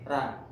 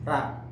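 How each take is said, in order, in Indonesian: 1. Vokal setelah huruf r terdengar seperti 'a'. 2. Vokal setelah huruf r terdengar seperti 'a'.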